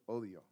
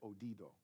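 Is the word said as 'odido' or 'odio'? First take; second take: odio; odido. First: The word has no extra d sound: odio. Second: The word has an extra d sound: odido. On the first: The speaker calls it right. "I said it right this time" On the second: The speaker calls it wrong. "Last time I said odido"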